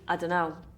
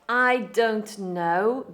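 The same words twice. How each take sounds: First: The words are run together and reduced. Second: Each word is said clearly and separately.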